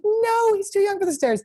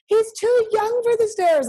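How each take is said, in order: First: High, insistent mock scold; mock fussy insisting. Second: High, slow fussy scold; mock stern warning. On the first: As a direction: nag like an overprotective owner. Friend quoted insisting again. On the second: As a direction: play the overprotective dog mom. Friend quoted scolding about stairs.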